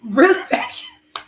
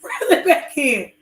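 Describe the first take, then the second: First: Higher, slow, mocking his sly tone; slow mocking repeat; mocking echo. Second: Slow, less exaggerated repeat; slow half-teasing repeat; milder mocking echo. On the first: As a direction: throw his line back at him, teasing. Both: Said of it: "say it like how you say it".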